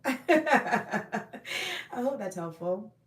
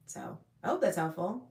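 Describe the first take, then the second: First: Repeated with a laugh. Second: Said in the usual way. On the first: Shown as a demonstration.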